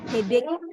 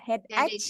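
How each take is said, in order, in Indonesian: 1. Kata ini berakhir dengan bunyi k. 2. Kata ini berakhir dengan bunyi seperti ch. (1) "seolah-olah bunyi terakhirnya itu bunyi K" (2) "Banyak yang bacanya masih salah ya"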